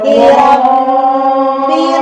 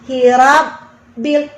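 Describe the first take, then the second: First: The word flows without any break inside it. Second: There is a break in the middle of the word. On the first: The speaker calls it right. "jangan dimatiin hurufnya" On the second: The speaker calls it wrong. "ada jeda"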